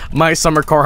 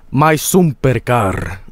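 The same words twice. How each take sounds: First: Said in the usual way. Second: Slow mock-Finnish "sumper car"; Finnish accent. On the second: Streamer mimicking the game's developer, mock Finnish accent. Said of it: "the Finnish accent".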